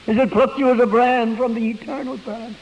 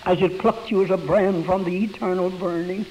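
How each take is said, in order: First: Emphatic repeat. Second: Said in the usual way. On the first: Shown as a demonstration. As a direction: preach it the second time with lift. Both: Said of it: "repeated with force".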